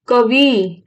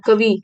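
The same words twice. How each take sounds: First: कवि with the closing इ held long; final vowel shown. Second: Said in the usual way. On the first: Shown as a demonstration. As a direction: stretch the last vowel of कवि for the learners. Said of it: "ई, छोटी ई आ रही है". (कवि की आख़िरी इ खींचकर) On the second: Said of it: "छोटी ई आ रही है".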